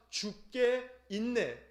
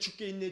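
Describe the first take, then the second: First: The phrase is said at a normal, unhurried pace. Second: The phrase is said quickly, running the words together. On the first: It declares that everything is in the Lord's hands. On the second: It starts to sound like saying one is about to die.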